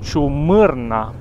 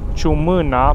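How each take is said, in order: First: The name is said with an r sound. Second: The name is said without an r sound. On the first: The speaker calls it right. "dar de fapt se numește Ciumârna" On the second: The speaker calls it wrong. "Noi tot am spus azi pasul Ciumâna"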